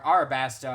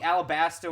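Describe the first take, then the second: First: The second syllable begins with an R sound. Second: The second syllable begins with an L sound. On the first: The speaker calls it right. "apparently is Arabasta" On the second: The speaker calls it wrong. "I've been saying it wrong this whole time"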